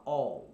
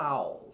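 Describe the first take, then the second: First: "all" with a rounded O sound, like "ól"; "all" said closer to O than A; "all" with an English dark L and a rounded vowel. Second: "all" said with an open Portuguese A, like "au"; "all" the way a Brazilian reads it, open A sound; "all" pronounced wrongly with a wide open ah. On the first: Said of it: "você fala all, mais pro O". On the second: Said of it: "em inglês você não fala all". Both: Shown as a demonstration.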